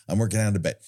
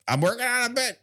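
First: Said in the usual way. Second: Much higher, mock-defensive protest; mock-defensive insistence. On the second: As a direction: insist in a high put-on voice. Mock-defensive reply to Becky, repeated.

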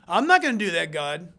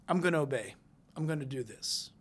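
First: Louder, firm pushback, dropping at the end; mock refusal. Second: Low, softened resolve; quiet submission. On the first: Believer talking back to God, mock defiant refusal. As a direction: imitate someone flatly refusing an order. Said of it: "You can't say". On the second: Acted. Believer yielding to God, quiet obedient resolve. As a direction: give in humbly, sinking lower and softer.

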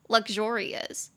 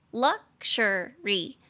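First: Luxurious said slowly with the second syllable XU hit hardest; slow model of luxurious, XU stressed. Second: Luxury said slowly with the first syllable LUX hit hardest; slow model of luxury, LUX stressed. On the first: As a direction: lean on XU in luxurious, drawn out. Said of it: "重音节在第二音节". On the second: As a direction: lean on LUX in luxury, drawn out. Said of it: "重音节在第一音节". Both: Shown as a demonstration.

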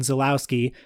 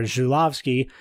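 First: Zulawski said the English way, with a plain Z and W; anglicized pronunciation. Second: Zulawski attempted the Polish way, Zhu-LAV-ski; alternative pronunciation. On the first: Reading a critic's list of Polish directors, Zulawski pronounced the anglicized way. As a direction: say Zulawski as an English speaker would read it. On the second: Unsure host offers another attempt at Zulawski, pronounced Zhu-lav-ski. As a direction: say Zulawski with a zh start and a v for the w. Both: Shown as a demonstration. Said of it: "or however you pronounce it".

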